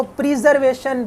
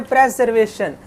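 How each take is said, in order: First: प्रिजर्वेशन with a long "pri" like prize; wrong pronunciation shown. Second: प्रिजर्वेशन said "prezervation" with short e; correct pronunciation shown. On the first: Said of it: "बिल्कुल नहीं पढ़ना आपने". (प्रिजर्वेशन को "प्राइज़" जैसी आवाज़ में गलत तरह बोलना) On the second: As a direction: start प्रिजर्वेशन with "prez". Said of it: "इसको पढ़ना है". (प्रिजर्वेशन को "प्रेज़" से सही बोलना) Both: Shown as a demonstration.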